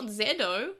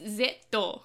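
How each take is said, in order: First: The middle consonant is a soft D sound. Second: The middle consonant is a crisp T sound. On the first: The speaker calls it wrong. "it's not Zedo" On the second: The speaker calls it right. "it's Zetto, with a T"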